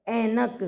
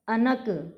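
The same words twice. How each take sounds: First: ऐनक opening on a long "ai"; correct ऐनक. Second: अनक with a plain short a at the start; mispronounced ऐनक. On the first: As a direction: stretch the first vowel of ऐनक. (ऐनक में लंबा ऐ) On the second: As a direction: open अनक on "a", no glide. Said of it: "ऐनक नहीं होता". (अनक, ऐ की जगह अ) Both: Shown as a demonstration.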